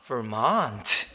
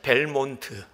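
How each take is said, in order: First: It starts with V and uses an R sound. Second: It starts with B and uses an L sound. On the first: "그랬더니 그가 다시 얘기를 해줘" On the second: "그걸 정확하게 B하고 L로 발음을 제가 하는 거죠"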